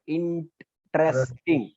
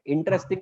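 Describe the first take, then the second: First: "इंटरेस्टिंग" slowly broken into इन, टरेस, टिंग; split into syllables. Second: Said in the usual way. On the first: Shown as a demonstration. Teacher showing how often the mouth moves, syllable by syllable. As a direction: draw out each beat of "इंटरेस्टिंग" with gaps between. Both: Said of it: "तो बहुत बार होता है".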